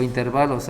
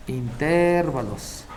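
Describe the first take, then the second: First: "intervalos" with the stress on VA; stressed as interválos. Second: "intervalos" slowly, with the stress on TER; stressed as intérvalos. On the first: Teacher offering the other pronunciation, stressed as interválos. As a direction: say "intervalos" as in-ter-VA-los. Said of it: "también se puede decir intervalos". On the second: Teacher naming the topic for the class, stressed as intérvalos. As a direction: say "intervalos" as in-TÉR-va-los, drawn out. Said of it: "algunos dicen intervalos". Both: Shown as a demonstration.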